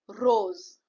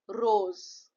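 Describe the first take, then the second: Both takes have the same delivery.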